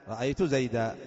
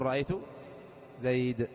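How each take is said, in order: First: The last word ends in a long a vowel. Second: The last word ends in a bare consonant. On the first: "وعلى المنون المنصوب بإبدال التنوين ألفا" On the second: "هناك من العرب من يقف على نفس المنون المرفوع المنون المجرور"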